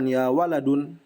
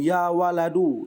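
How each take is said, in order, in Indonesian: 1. Kata ini berakhir dengan bunyi n. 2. Kata ini tidak berakhir dengan bunyi n. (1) "bukan ya waladun" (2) "Atau ya waladu ya"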